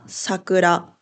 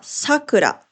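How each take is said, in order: First: It has the pitch accent of the flower word. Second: It has the pitch accent of the girl's name. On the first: It names the cherry blossom. "春の花は桜。" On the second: It is a girl's name. "女の子の名前はさくら。"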